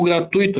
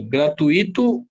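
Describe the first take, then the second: First: "gratuito" with stress on the u; pronunciation option demo. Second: "Gratuito" with stress on the i, rising; pronunciation option demo. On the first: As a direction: say "gratuito" as "gra-TÚI-to". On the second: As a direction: say "Gratuito" as "gra-tu-Í-to". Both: Shown as a demonstration. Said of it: "Como que eu falo?".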